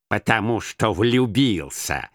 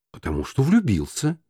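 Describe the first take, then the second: First: Slow, contemptuous grumbled echo; презрительное ворчание. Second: Said in the usual way. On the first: A narrator's reading. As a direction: repeat it with grumbling scorn. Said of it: "проворчал Скрудж с таким презрением". (проворчать с презрением)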